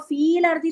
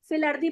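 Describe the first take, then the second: First: The first word has a long vowel. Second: The first word has a short vowel. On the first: The speaker calls it wrong. "इसको फील earthy तो नहीं पढ़ते" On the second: The speaker calls it right. "हम आराम से इसको फिल earthy पढ़ जाते हैं"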